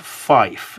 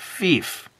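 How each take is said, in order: First: The vowel is an 'eye' as in 'fight'. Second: The vowel is a long 'ee' as in 'feet'. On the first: The speaker calls it wrong. "some people might pronounce it as Fife" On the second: The speaker calls it right. "no, it's pronounced Fief"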